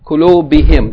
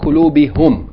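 First: The pronoun ending is pronounced with an i vowel. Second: The pronoun ending is pronounced with a u vowel. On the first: The speaker calls it right. "So they say kulubihim. That's easier" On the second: The speaker calls it wrong. "They don't like kulubihum"

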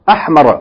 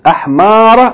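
First: The vowel in the word is short. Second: The vowel in the word is long. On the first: "with a short vowel" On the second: "with a long vowel"

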